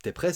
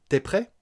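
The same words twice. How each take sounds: First: Said in the usual way. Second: "prêt" jumps up high at the end; question intonation. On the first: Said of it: "c'est affirmatif". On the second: Shown as a demonstration. Teacher showing spoken questions, high rise on "prêt". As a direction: make "T'es prêt" a question by tune alone. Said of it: "on va prendre l'intonation d'une phrase".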